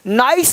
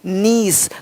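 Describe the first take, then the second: First: The vowel sounds like 'eye'. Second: The vowel sounds like 'ee'. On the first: The speaker calls it wrong. "नाइस नहीं" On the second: The speaker calls it right.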